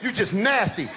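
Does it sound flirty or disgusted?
disgusted. It sounds annoyed and disgusted.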